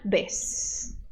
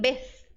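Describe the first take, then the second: First: The final consonant is an s sound. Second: The final consonant is a th sound. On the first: "se você quer falar a pronúncia do Z da América, você vai fazer o som de S" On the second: "lá na Espanha acontece o fenômeno linguístico chamado ceceo"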